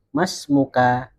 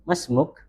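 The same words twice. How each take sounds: First: "Mas muka" slowly, voicing the final -ka; bacaan lengkap. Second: "Mas muk" ending on a bare k; percakapan, akhiran disukun. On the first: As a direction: read out "Mas muka" with its end vowel sounded. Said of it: "kalau kita membaca, kan bacanya". (dibaca lengkap "Mas muka", akhirannya berharakat) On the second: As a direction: drop the last vowel in "Mas muk". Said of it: "itu belakangnya disukun". ("Mas muk" diucapkan dengan akhiran sukun) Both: Shown as a demonstration.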